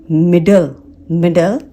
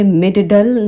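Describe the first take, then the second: First: मिडल as "mid-l"; single D. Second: मिडल wrongly as "mid-duh-dul"; extra D syllable in मिडल; both Ds pronounced. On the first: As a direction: correct two-syllable मिडल, one D. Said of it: "हम इसे". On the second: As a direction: sound each D separately in मिडल. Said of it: "नहीं पढ़ते". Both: Shown as a demonstration.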